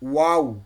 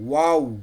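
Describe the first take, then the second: The two takes are said the same way.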